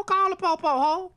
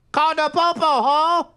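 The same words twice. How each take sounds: First: Said in the usual way. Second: Louder dare, hitting popo with a rising tune; louder taunt. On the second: Acted. Grandma daring the house intruder to call police, louder taunt. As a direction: throw it back at her louder.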